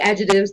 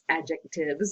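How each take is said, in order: First: The T sound in the middle is dropped. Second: The T sound in the middle is pronounced. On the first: This is how the local regional accent says it. "I say adjectives because of my accent, because of the region I'm in" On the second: This is the fuller, standard form of the word. "if you're going to include the T in there"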